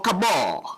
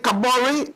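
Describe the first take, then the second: First: "Kabor" in two syllables, final e dropped; English pronunciation. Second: "Kabore" in three syllables, ending in a sounded -ray; African pronunciation. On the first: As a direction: end "Kabor" on a long -bor. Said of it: "English people say Kabor". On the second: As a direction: say "Kabore" with the final e voiced. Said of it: "have I got the name right". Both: Shown as a demonstration.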